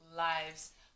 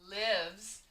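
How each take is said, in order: First: The vowel is a long I, as in 'eye'. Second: The vowel is a short I, as in 'it'. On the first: It is the plural of life, as in a game. "you could say this with a long I" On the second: It is the verb meaning someone resides somewhere. "Or you could say with a short I"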